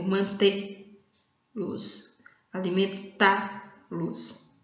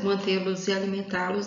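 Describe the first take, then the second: First: "mantê-los, alimentá-los" with TÊ and TÁ stressed, each split off from "los"; stress on final verb syllable. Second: Said in the usual way. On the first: Shown as a demonstration. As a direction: slowly break "mantê-los, alimentá-los" after the strong syllable: manTÊ... los, alimenTÁ... los. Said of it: "a sílaba mais forte está na última sílaba aí do verbo". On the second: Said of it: "a sílaba mais forte está na última sílaba".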